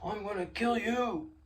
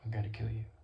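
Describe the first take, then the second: First: The threat is said angrily and loudly. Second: The threat is said calmly and quietly.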